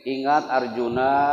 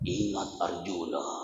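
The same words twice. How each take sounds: First: It is said in a plain everyday voice. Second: It is said in a dramatic narrator voice.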